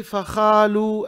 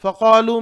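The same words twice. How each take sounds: First: फ़ख़ालू with scraped kh; wrong kh for qaf. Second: Weight the q in फ़क़ालू; correct qaf. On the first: Teacher shows "not like this", kh for qaf. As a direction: turn q into kh in फ़ख़ालू. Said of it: "ऐसा नहीं". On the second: Teacher points out the letter, correct qaf. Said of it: "में भी क़ाफ है". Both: Shown as a demonstration.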